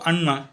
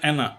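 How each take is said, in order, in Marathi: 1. यात दुहेरी मूर्धन्य n आवाज आहे. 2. यात एकच n आहे आणि पहिला स्वर उघडा आहे. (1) "मराठीत त्याचा उच्चार होतो अण्णा" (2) "तिकडं त्या स्पेलिंगचा उच्चार ॲना"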